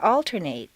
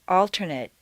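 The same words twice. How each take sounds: First: The last syllable has a full 'ay' vowel. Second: The last syllable has a weak reduced vowel. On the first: It is used as a verb. "a full a sound" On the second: It is used as a noun or adjective. "completely reduced to mt"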